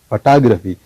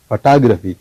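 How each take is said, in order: First: The stress is on the second syllable. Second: The same.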